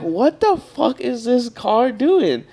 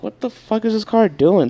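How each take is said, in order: First: Very slow, higher, stretched out incredulous question; drawn-out disbelief. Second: Higher, incredulous outburst; exasperated disbelief. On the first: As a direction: drag every word out in disbelief. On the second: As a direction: throw the question up in disbelief. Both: Retold or imitated. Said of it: "I'm like".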